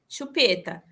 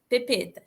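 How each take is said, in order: First: The word begins with an sh sound. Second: The word begins with a p sound. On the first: This is the adult model of the word. The speaker calls it right. "Você não fala, sei lá, chupeta" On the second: This is a young child's early attempt. The speaker calls it wrong. "e aí ele fala pepeta"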